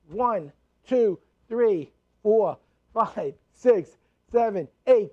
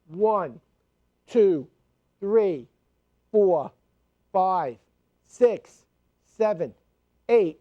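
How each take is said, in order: First: The counting is a little quicker. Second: The counting is at a steady, moderate pace.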